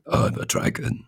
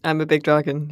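First: Raspy, voiceless dragon voice; generic dragon. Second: Lightly voiced big dragon; a hint of a generic dragon voice. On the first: Acted. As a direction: rasp it out like a dragon. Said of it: "I really like that dragon voice". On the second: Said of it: "just like a generic dragon voice".

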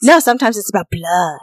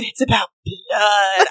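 First: Low, sly tease; teasing deadpan. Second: Slow, low mock of her line; imitating her deadpan. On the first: Real, not acted. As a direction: drop it with a wicked deadpan. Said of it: "the look on her face when she said". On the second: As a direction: drag it out, half laughing. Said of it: "when she said".

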